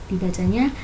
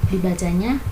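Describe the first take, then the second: No difference in how they are said.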